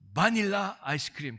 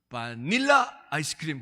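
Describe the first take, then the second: First: The stress is on the first syllable. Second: The stress is on the middle syllable. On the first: "액센트를 좀 더 넣어가지고" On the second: "이게 중간에 있나 보다"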